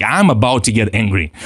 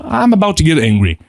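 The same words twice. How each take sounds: First: Said in the usual way. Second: A touch higher, tense admission; name the anger as it rises; lightly heightened self-warning; alert self-acknowledgment. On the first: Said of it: "acknowledging themselves". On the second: Shown as a demonstration. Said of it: "if you acknowledge yourself".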